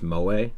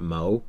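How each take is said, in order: First: The final vowel is fully pronounced. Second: The final vowel is dropped. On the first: The speaker calls it right. "they were pronounced like fully" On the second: The speaker calls it wrong. "it's not mo"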